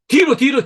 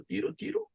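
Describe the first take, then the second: First: Loud, high call of the stretch. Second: Very soft, high fading count; fading whisper. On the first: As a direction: call the count out loud to the room. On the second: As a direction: let the count trail off almost silent. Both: Shown as a demonstration. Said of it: "stretching instructions".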